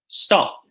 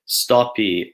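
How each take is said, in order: First: It ends cleanly on a consonant. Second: It ends with an added vowel sound. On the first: The speaker calls it right. "there's no need for that cheeky extra vowel sound at the end" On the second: The speaker calls it wrong. "Brazilian Portuguese speakers will probably say something like"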